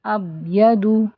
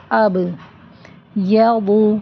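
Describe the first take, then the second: First: اب یدو with the ب swallowed; اب یدو without qalqalah; dropped ba. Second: اب with the ب bouncing back, then یدو; اب یدو with bounced ب; qalqalah on ba. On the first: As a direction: let the ب drop in اب یدو. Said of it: "اگر ایسے پڑھ دیں". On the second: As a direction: echo the ب in اب. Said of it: "تو اس پر قلقلہ ہوگا". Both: Shown as a demonstration.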